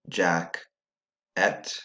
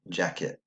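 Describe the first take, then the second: First: Both syllables are said separately with equal stress. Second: The second syllable is quieter and reduced. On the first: "they both have equal stress on the syllable" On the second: "the second syllable was quieter"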